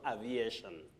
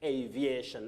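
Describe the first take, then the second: First: The first vowel differs from the letter name A. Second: The first vowel sounds like the letter name A. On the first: The speaker calls it wrong. "not aviation" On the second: The speaker calls it right. "Just like aviation, aviation"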